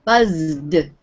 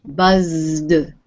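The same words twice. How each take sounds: First: Buzzed with a clear D at the end; Buzzed ending in a plain voiced D. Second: Buzzed with the final D held out; slow Buzzed, sounding the D; Buzzed with a long, clear D at the end; clear voiced ending. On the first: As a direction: land on the D of Buzzed. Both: Shown as a demonstration. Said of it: "the sound at the end of the word is D".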